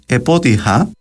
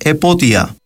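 First: An h sound comes before the last vowel. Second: No consonant comes before the last vowel.

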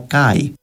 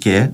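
First: The word ends in an ai diphthong. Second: The word ends in a plain e vowel. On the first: This is how it was said in ancient times. "αλλά κάι" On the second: This is how it is said today. "στα αρχαία ελληνικά δεν προφέρετουν και"

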